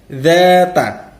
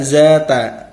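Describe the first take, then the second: First: The first sound is a voiced th. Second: The first sound is a buzzing z. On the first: The speaker calls it right. "Keluarkan lidah antara gigi atas dan gigi bawah" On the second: The speaker calls it wrong. "menjadi huruf zai, itu salah"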